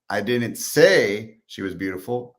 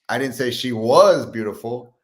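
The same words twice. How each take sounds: First: The word "say" carries the main stress. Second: The word "was" carries the main stress.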